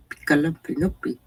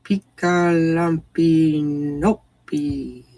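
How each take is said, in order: First: "Picalampinopi" rattled off at normal speed, falling at the end; "Picalampinopi" tossed off quickly; brisk silly "Picalampinopi"; quick silly pronunciation. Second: "Picalampinopi" drawn out very slowly, syllable by syllable; "Picalampinopi" sung out slow and goofy; slow silly "Picalampinopi"; silly pronunciation. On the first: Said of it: "pronounced in a silly way". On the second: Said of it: "it demands to be pronounced in a silly way". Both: Shown as a demonstration.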